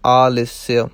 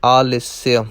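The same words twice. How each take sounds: The two takes are said the same way.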